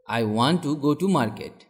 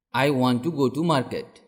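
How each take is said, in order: Both takes have the same delivery.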